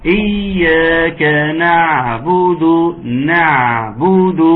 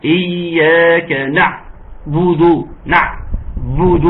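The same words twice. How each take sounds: First: إياك نعبد with the ain of نعبد voiced and unbroken; voice kept through the ain. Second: إياك نعبد with the voice cut off at the ain of نعبد; cutting the voice on the ain. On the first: Teacher demonstrating the correct reading without cutting the voice. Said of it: "ما تقطعوش الصوت". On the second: Teacher demonstrating the wrong reading, voice cut on the ain. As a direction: break the sound on the ain in نعبد, slow. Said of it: "اسمعوا كده". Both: Shown as a demonstration.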